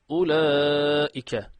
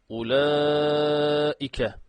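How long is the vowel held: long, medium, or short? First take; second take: short; medium. First: The long vowel is held only briefly. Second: The long vowel is held a moderate time. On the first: This is the fast style of reading. "hızlı okuyorsak" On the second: This is the medium style of reading. "Orta okuyorsak"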